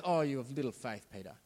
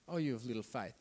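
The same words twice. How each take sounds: First: A hint of a sighing, talking-down rebuke; mock condescending Jesus. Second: Quieter, tutting talk-down repeat; softer mock condescension. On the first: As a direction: imitate Jesus lightly looking down on Peter. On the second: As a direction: drop the voice as you talk down to him. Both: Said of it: "It's like he's been condescending".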